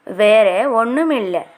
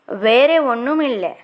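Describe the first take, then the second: No difference in how they are said.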